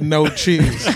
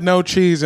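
First: Mildly firm, deliberate restatement; pointed insistence. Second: Said in the usual way. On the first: Retold or imitated. Diner retells ordering from the lady, mildly pointed insistence. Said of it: "I looked the lady in the face". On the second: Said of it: "I said".

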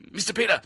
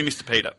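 First: Higher-pitched put-on Asian accent; Asian-accented driver, voiced higher; imitated Asian accent. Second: Said in the usual way. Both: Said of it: "Oh, I do the accent continually".

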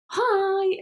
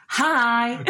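First: Put-on high, simple child's hi; imitating toddler's normal hi. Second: Imitating a sassy toddler hi. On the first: Mum imitates daughter greeting normally, high child voice. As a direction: say hi lightly, up high. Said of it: "which is normal". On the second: Mum imitates daughter going into nursery, sassy. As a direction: throw out a high, drawn-out sassy hi. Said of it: "she says so sassy".

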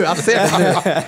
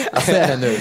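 First: Laughing as it dawns on him; amused realization. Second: Said in the usual way. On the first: Real, not acted. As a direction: say it through a laugh, seeing it now. Laughing recognition.

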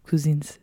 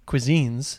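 First: Cuisines said softly in a light fake French accent, koo-ZEENZ; a quiet playful French take on cuisines; mock French accent. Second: Cuisines said kwi-ZEENZ with the plural s, carefully; correct pronunciation. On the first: Repeating cuisines for her co-host in a soft mock French accent. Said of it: "This is me trying to do a French accent". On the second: Shown as a demonstration. Podcast host confirming the plural to her co-host, saying cuisines clearly. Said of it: "you're correct on the".

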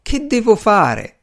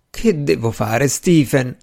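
First: High, slow wail of despair; plaintive, drawn-out moan in a raised voice. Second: Mildly plaintive question; a touch of a moan, narrated lament. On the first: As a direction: draw out the lament, pitched high. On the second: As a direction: plead with understated distress. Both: A narrator's reading. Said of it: "gemeva il gentiluomo".

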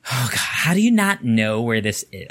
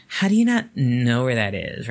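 First: Hammed-up exasperated sigh, then the question; exaggerated condescending boss. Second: Milder, lightly scornful boss; a hint of disbelief; toned-down condescension. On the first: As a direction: overplay how dumb she found him. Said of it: "I don't think she sounded like that". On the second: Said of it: "Kinda like that".

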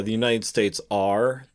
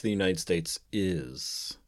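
First: "are" slowed and set apart; stress on ARE. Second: "is" drawn out as the key word; stress on IS. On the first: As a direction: lean on "are" at the end. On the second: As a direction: land firmly on "is". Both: Shown as a demonstration. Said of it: "we went from calling ourselves, like, saying".

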